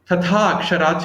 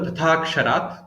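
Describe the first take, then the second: First: The words are said separately, vowels kept apart. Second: The words are joined, the vowels merging into one.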